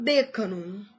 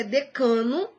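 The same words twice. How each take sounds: First: "decano" stressed DÉ-ca-no; wrong stress. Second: "decano" stressed de-CA-no; correct stress. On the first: Teacher warning against an error, first-syllable stress. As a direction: punch DE in "decano". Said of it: "e não". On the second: Teacher giving the correct form, penultimate stress. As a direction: punch CA in "decano". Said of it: "O certo é". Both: Shown as a demonstration.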